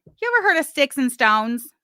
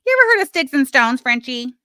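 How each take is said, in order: First: Said in the usual way. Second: Louder, higher and faster, jabbing at Frenchie; raised taunting challenge; loud taunting repeat. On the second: Real, not acted. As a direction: call it out to her, pushed up and quick.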